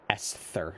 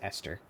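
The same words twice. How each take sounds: First: The middle consonant is a 'th' sound. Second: The middle consonant is a plain 't' sound. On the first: The speaker calls it wrong. "It's got an H in it, but I don't, I feel like you don't pronounce it like Esther" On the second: The speaker calls it right. "I think it's Esther"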